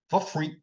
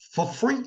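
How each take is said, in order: First: Said in the usual way. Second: "for free" with the pitch leaping high on "free"; "for free" sung out high and rising in amazement; emphatic for free. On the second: Real, not acted. Praising free culture in France, "for free" leaping high.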